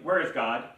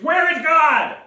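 First: It is asked sternly at moderate volume. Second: It is asked loudest, with a raised voice.

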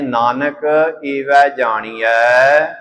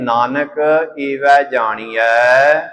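First: The second word is said as 'e vai'. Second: The second word is said as 'e vai'.

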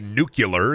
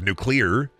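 First: The word is said in a regional, nonstandard way. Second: The word is said in the standard way. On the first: "I used to say nuclear" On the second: "instead of nuclear"

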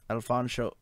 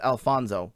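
First: The middle consonant is an sh sound. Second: The middle consonant is a plain s sound. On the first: The speaker calls it right. "Pronouncing the sh is sound is very important" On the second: The speaker calls it wrong. "He gets offended if you pro- pronounce it as Alfonso"

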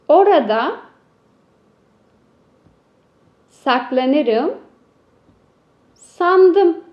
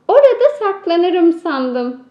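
First: It is read slowly, one word at a time. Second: It is read quickly as one smooth phrase. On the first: "Şimdi de metnimizi hecelemeden okuyalım" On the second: "Şimdi metnimizi daha hızlı okuyalım"

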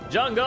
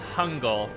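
First: The name begins with a J sound. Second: The name begins with an H sound.

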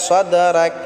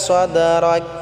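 Both takes have the same delivery.

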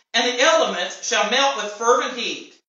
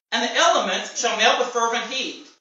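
No difference in how they are said.

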